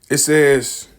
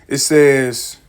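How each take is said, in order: No difference in how they are said.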